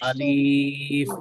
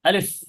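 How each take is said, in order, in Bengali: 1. শব্দটি ধীরে ধীরে টেনে বলা হয়। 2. শব্দটি ছোট ও দ্রুত করে বলা হয়। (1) "এইভাবে টেনে টেনেও বলা যাবে না" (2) "খুব দ্রুত পড়তে হয়, খুব স্পিডে বলতে হয়"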